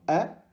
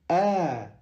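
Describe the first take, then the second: First: The vowel is short. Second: The vowel is held for two beats. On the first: The speaker calls it wrong. "On ne dit pas" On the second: The speaker calls it right. "on allonge le son de deux temps. ... on dit"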